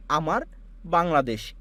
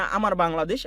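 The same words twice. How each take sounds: First: "আমার", a long pause, then "Bangladesh"; halting with a pause. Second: Said in the usual way. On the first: Shown as a demonstration. Teacher showing students the wrong, halting way to say "আমার Bangladesh". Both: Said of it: "এরকম থেমে থেমে না".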